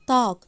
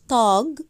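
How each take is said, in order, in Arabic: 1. الكلمة تنتهي بصوت k خفيف. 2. الكلمة تنتهي بصوت g. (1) "أنا بنطقها كأنها كاف خفيفة مش جي" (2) "مش تاج"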